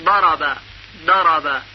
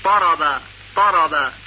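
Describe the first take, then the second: First: ضرب with zad said like a dal. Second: ضرب with zad said like a ta. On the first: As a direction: pronounce ضرب as darb. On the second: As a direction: pronounce ضرب as tarb. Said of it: "و بعضی به صورت طا". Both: Shown as a demonstration.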